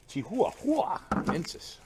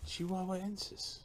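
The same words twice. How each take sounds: First: Chihuahuensis drawn out slowly, higher and louder with stress moved to another syllable; playful mispronunciation of Chihuahuensis; funny pronunciation. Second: Said in the usual way. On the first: Shown as a demonstration. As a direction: say Chihuahuensis slow and silly, wrong syllable stressed. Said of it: "The accent goes on a different syllable". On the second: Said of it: "That's not how you say that".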